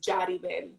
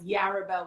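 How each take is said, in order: First: The name is said with a Spanish pronunciation. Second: The name is said with an English pronunciation. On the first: The name is said in its original form. The speaker calls it right. "the real pronunciation is" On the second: The name is adapted to suit English speakers. The speaker calls it wrong. "which is the English pronunciation"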